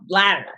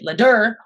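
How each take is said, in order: First: The stress is on the first syllable. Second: The stress is on the second syllable. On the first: The speaker calls it right. "Lad, ladder" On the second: The speaker calls it wrong. "You don't say ladder"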